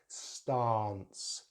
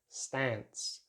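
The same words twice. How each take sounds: First: The vowel is a long 'ah' sound. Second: The vowel is a short sound. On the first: "in British English the long vowel sound R" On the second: "they use a short vowel sound"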